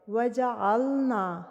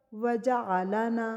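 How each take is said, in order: First: وَجَعَلْنَا with the lam still, no vowel on it; وَجَعَلْنَا, lam held silent; correct sukun. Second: وَجَعَلَنَا with an added a on the lam; wrong vowel on sukun. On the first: (درست وَجَعَلْنَا، لام ساکن) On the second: (غلط وَجَعَلَنَا، ساکن کو متحرک پڑھنا) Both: Shown as a demonstration. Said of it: "اب اس کو پڑھ دے".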